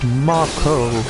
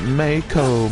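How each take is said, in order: First: The first vowel sounds like 'ah'. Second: The first vowel sounds like 'ay'. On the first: The speaker calls it right. "it's pronounced Mako" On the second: The speaker calls it wrong. "Sounds like Mayo"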